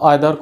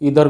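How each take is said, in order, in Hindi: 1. पहला स्वर 'eye' जैसा सुनाई देता है। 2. पहला स्वर 'ee' जैसा सुनाई देता है।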